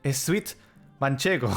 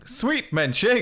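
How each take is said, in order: First: It is said with a Spanish accent, adding 'es'. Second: It is said plainly, without a Spanish accent. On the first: "So they would say es sweet Manchego" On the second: "just saying sweet Manchego"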